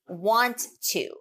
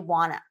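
First: The words are said in full as 'want to'. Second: The words are reduced to 'wanna'.

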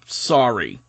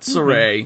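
First: The name sounds like the word 'sorry'. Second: The name is said as 'Sa-ray'. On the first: The speaker calls it wrong. "this might have been a little bit of her New Zealand accent, but Dakota called her Sorry" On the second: The speaker calls it right. "Not Saray"

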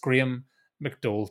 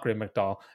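First: The name is said in a Northern Irish way. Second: The name is said in an American way. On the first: The speaker calls it right. "If you're from Northern Ireland, you say McDowell. It's Graham McDowell to me" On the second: The speaker calls it wrong. "not Graham McDowell"

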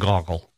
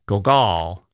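First: The name is said with a thin, weak sound. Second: The name is said with a French-sounding pronunciation. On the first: "Gogol sounds weak, like the cry of a damaged bird" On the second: "which sounds like a French painter"

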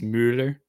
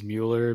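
First: The name is said the original, authentic way. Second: The name is said the common, everyday way. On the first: "If you want to be real about it, it's Mueller" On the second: "I think the general pronunciation is Mueller"

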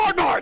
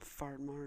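First: It is said with lively enthusiasm. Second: It is said flatly and sadly.

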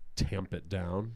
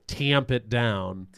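First: The A vowel sounds neutral and toned down. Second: The A vowel is strongly flattened and nasal. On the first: "I've worked really hard to, like, tamp it down" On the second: "for example"

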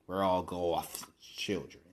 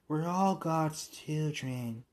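First: The phrase is said with a lisping sound. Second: The phrase is said plainly without a lisp. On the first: "When you got a lisp like hers, it's goth" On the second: "Not God"

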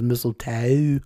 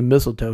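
First: The word is said in a southern-sounding accent. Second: The word is said in a plain, ordinary accent. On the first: "almost like he was trying to speak with a southern accent there" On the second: "He doesn't just say mistletoe"

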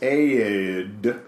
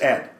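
First: The name is drawn out, in a Southern accent. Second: The name is short, in a Northern accent. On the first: "In the South, it's Aid" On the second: "In the North, it's Ed"

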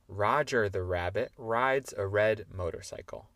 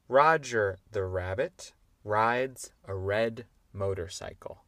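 First: The sentence is said at a fast pace. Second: The sentence is said at a moderate pace.

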